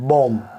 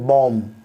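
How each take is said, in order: No difference in how they are said.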